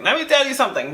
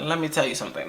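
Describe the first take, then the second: First: Much higher pitched, insistent retelling; insistent warning. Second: Restrained warning. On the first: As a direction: lift the pitch sharply to demand attention. Repeats the warning, escalating to him. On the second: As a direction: say it under your volume, holding back. Retelling her telling-off of a caller. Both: Retold or imitated.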